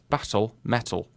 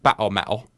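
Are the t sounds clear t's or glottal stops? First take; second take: clear t's; glottal stops. First: The t sounds are pronounced as clear t's. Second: The t sounds are replaced by glottal stops. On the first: The speaker calls it right. "It's battle metal" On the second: The speaker calls it wrong. "It's not pronounced battle metal"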